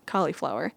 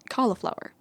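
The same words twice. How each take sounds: First: "cauliflower" said COLL-ee-flower; family's pronunciation. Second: "cauliflower" said CALL-uh-flower; others' pronunciation. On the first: Vlogger showing her family's version, cauliflower with middle ee. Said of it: "say it the same way we do". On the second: Vlogger quoting everyone else's version, cauliflower with middle uh. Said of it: "On the contrary, everyone else". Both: Shown as a demonstration.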